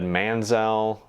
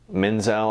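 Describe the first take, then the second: First: The first vowel sounds like the one in 'man'. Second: The first vowel sounds like the one in 'men'. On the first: The speaker calls it wrong. "it kind of sounds like I said Manzel" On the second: The speaker calls it right. "Menzel, I believe is, is her last name"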